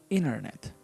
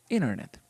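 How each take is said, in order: Both takes have the same delivery.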